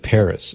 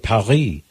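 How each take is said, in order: First: It is said the English way, like PAR-is. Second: It is said the French way, like pa-REE.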